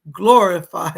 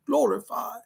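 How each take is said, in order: First: Said in the usual way. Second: Put-on glorified in a light British accent, rising at the end. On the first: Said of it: "he's saying it like I say it". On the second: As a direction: say "Glorified." like a British gentleman, a touch amused. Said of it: "a British man going".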